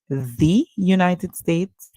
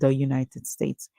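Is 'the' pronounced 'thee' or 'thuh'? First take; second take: thee; thuh. First: 'The' is pronounced with a long 'ee' vowel. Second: 'The' is pronounced with a short 'uh' vowel. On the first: The speaker calls it right. "This should be D" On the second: The speaker calls it wrong. "I said the United States"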